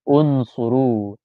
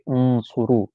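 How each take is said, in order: First: The word starts with a short u vowel. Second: The word starts directly with the consonant n. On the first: The speaker calls it right. "So we add the helper alif" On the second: The speaker calls it wrong. "we can't say it like this"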